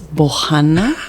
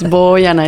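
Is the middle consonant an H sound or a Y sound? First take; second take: H sound; Y sound. First: The middle consonant is an H sound. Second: The middle consonant is a Y sound. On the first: The speaker calls it wrong. "they look at the name tag and it's with, with J" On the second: The speaker calls it right. "It's like a boy, but I'm a girl"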